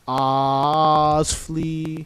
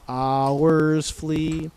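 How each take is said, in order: First: The word hours is said as one syllable. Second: The word hours is said as two syllables. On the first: The speaker calls it right. "in singing we only sing one" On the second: The speaker calls it wrong. "So not hours flee"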